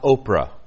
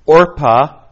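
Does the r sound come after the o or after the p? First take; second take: after p; after o. First: The r sound comes right after the p. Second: The r sound comes right after the o. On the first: The speaker calls it wrong. "not Oprah" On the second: The speaker calls it right. "the correct pronunciation"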